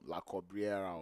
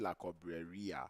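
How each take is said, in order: First: The name ends with the sounds 'rera'. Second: The name ends with the sounds 'reria'. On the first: The speaker calls it wrong. "I've always pronounced it" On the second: The speaker calls it right. "it's actually La Cobreria"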